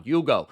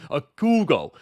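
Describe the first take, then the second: First: Hugo said you-go, H dropped; silent H in Hugo. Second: A Hugo said like a coup, a-koo-go; punny Hugo. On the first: Host savoring the player's name, Hugo with silent H. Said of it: "I love that he doesn't pronounce the H". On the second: Host botching a coup pun, a Hugo. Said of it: "That was terrible". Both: Shown as a demonstration.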